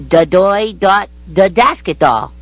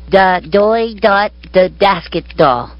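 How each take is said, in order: The two takes are said the same way.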